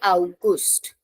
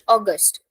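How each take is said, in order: First: It is pronounced the usual German way. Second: It is pronounced like the English word. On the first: Most people say it this way. "majority of the people say August" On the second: Some people in one region say it this way. "people are calling it as similar to that of English"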